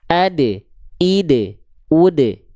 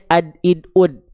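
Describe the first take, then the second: First: The d sound is released with an echoing bounce. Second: The d sound stops abruptly without any bounce. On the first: The speaker calls it right. "dibaca harus ada pantulan karena dia punya sifat kolkolah" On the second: The speaker calls it wrong. "Gak cukup dibaca hanya ad id ud"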